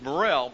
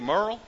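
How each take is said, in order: First: The name is said with two syllables. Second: The name is said with one syllable. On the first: This is the form the name took later. The speaker calls it wrong. "my last name is Morrell, but it's really not Morrell" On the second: This is the family's original form of the name. The speaker calls it right. "It's really Merle"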